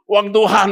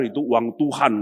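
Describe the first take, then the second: First: Tuhan punched high and loud; loud incredulous echo of the elders; mocking emphasis. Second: Said in the usual way. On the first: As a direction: throw back the phrase Uang Tuhan with mock awe. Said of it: "dia bilang". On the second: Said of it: "semua tuh bilang".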